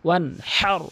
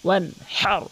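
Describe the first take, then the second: The two takes are said the same way.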